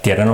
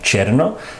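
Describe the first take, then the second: First: The word begins with a plain t sound. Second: The word begins with a ch sound. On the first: "pronuncia tierno" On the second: "más como cherno, que es típico de la lengua filipina"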